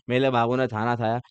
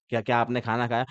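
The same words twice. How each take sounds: First: मेरे said as मेले, खाना as थाना, lisping and cutesy; mock baby talk. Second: Said in the usual way. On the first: Shown as a demonstration. Teacher contrasts normal speech with lovers' lisping baby talk. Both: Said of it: "normal बोलो, normal".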